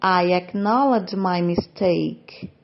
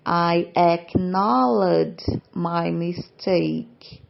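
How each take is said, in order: First: Slow, clear teacher read of "I acknowledge my mistake"; measured classroom pace; slow model reading. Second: Deliberate syllable-by-syllable demo; very slow model reading. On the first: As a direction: read "acknowledge" slowly for students to copy. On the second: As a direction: spell it out slowly so learners catch every sound. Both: Shown as a demonstration. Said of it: "Próximo exemplo".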